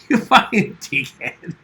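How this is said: It is said in a playful, joking way.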